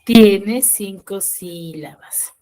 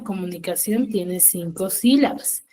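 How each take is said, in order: First: Slow, louder, each word set apart; slow and emphatic. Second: Said in the usual way. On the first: Shown as a demonstration. Teacher confirming the count to her online class, slow and emphatic. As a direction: lay it out slowly so the class can follow. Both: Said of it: "¿cómo pronuncio yo comunicación?".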